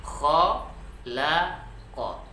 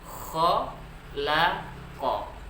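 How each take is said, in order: The two takes are said the same way.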